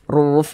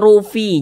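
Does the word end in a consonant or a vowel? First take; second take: consonant; vowel. First: The word ends on a silent, unvoweled f. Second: The word ends with an added i vowel. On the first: The speaker calls it right. "kita baca bil ma'ruf, ruf" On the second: The speaker calls it wrong. "Jangan dibaca rufi"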